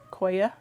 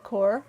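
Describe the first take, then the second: First: It is said as two syllables, like 'koya'. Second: It is said as one syllable, like 'core'. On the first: "Some people call it koya" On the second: "I say core"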